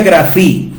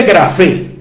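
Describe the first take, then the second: First: Grafí with a final I sound, stressed; Greek pronunciation. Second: Grafé read as written, stress on the final é; grafé as spelt, final E stressed; spelling pronunciation. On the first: Teaching a listener the correct Greek grafí, ending in I. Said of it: "y se pronuncia grafí". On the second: To a listener, the written form grafé, stress on the final E. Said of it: "se escribe grafé". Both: Shown as a demonstration.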